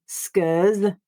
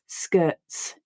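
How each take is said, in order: First: The t is dropped and the ending buzzes like z. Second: A throat stop replaces t; the ending hisses. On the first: "I don't just eliminate that letter T entirely and read skers" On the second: "I stop my voice and then read the s as a voiceless sound"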